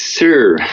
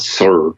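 First: The word has a neutral British English accent. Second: The word has a strong Northern Irish accent. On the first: The speaker calls it right. "it's sir" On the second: The speaker calls it wrong. "they would repeat with my full Northern Irish accent. And I'd say, no, it's not sir"

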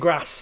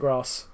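First: Said with a Northern British accent. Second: Said without a Northern British accent. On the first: "Northern Britain has a lot of, like, they say grass" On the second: "we say grass"

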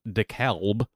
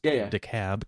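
First: The name is said the way it is spelled. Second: The name is said the local way. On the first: "spelled DeKalb" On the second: "but pronounced DeKalb County"

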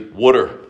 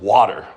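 First: It is said in a South Jersey accent. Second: It is said in a standard accent.

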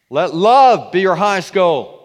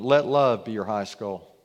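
First: It is read with exclamatory force. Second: It is read calmly, without extra force.

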